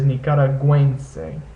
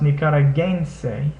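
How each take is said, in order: First: The u is sounded like a w. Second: The g is hard and the u is silent. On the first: The speaker calls it right. "the U E uh, becomes pronounced like it would in words like pueblo" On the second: The speaker calls it wrong.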